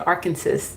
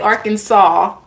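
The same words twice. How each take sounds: First: The last syllable sounds like 'sass'. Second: The last syllable sounds like 'saw'. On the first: The speaker calls it wrong. "my accent is coming out when I pronounce it like that" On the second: The speaker calls it right. "Yet they pronounce it saw"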